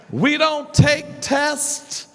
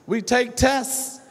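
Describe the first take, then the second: First: "tests" said as tess, higher and slower; dropped final consonant. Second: "tests" said as tess with no final t; dropped final consonant. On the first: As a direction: drop the t at the end of "tests". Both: Shown as a demonstration. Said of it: "in our African rules".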